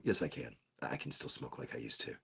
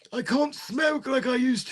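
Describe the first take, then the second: First: Low, very soft admission; quiet aside. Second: High, put-on old-timer lament; old person. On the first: Real, not acted. Taking back the joke in a low, quiet aside. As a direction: drop the act and say it under your breath. Drops act, contradicts himself under breath. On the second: Lamenting old smoking days in a high mock old-timer voice. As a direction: wail it like a mock old codger. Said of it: "because I'm getting old".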